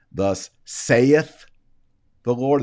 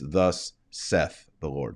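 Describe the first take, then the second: First: Saith stretched into two syllables, say-eth. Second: Saith said as one short syllable, seth. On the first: Retold or imitated. Mimicking people who say saith wrongly in two syllables. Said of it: "They do two, uh, two syllables there". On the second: Shown as a demonstration. Teacher showing the proper one-syllable saith. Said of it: "If you wanna say it properly".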